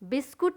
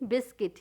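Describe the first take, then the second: First: The second syllable sounds like kut. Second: The second syllable sounds like kit. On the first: The speaker calls it wrong. "बिस्कुट नहीं" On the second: The speaker calls it right. "यू silent word है"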